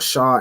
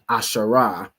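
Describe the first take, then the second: First: The word ends on a consonant sound. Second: The word ends with an added vowel sound. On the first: The speaker calls it right. "Or ashar instead of ashara in terms of um like pronouncing each letter" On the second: The speaker calls it wrong. "instead of ashara"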